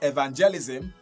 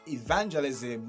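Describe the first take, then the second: First: The stress falls on another syllable. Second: The stress falls on the second syllable. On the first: The speaker calls it wrong. "not evangelism" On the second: The speaker calls it right. "it's stressed at the second syllable from your left"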